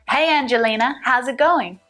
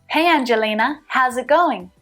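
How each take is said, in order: The two takes are said the same way.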